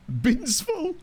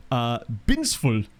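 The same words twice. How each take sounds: First: Binsful? with a high questioning rise, said higher; Binsful? asked back high with a rising tune. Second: Said in the usual way. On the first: Shown as a demonstration. Checking a club name's pronunciation with chat, rising question.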